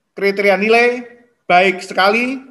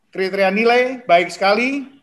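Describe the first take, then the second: Both takes have the same delivery.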